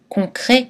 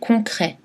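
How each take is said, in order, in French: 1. La voyelle finale est un e fermé. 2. La voyelle finale est un è ouvert.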